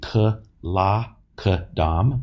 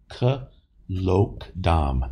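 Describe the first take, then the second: First: The vowel after the L is an a. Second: The vowel after the L is a short o. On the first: The speaker calls it wrong. "I realize that could be k-la-k-dam" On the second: The speaker calls it right. "The second syllable has a short O in it"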